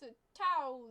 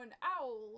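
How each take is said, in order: First: The T sound in the middle is pronounced. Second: The T sound in the middle is dropped.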